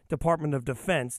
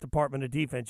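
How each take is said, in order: First: The stress in 'Defense' is on the second syllable. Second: The stress in 'Defense' is on the first syllable. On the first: This is the proper name of the government department. The speaker calls it right. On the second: This is how the word is said in football talk. The speaker calls it wrong.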